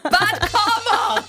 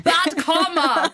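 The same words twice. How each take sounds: First: "Bad comma" slow and high, breaking into laughter; laughing mock accent. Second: "Bad comma" in a slow, hammed-up British accent; slow half-laughing fake British; mock British accent. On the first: Host laughs through a failed British accent. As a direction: give up laughing mid-accent. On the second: Host jokingly tries a British accent again, slow and high. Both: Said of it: "what accent was that?".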